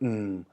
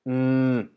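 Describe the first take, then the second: First: The pitch starts low and sinks lower. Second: The pitch stays level in the middle range. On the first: "low tone which goes down" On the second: "the middle tone, which actually is more like mm"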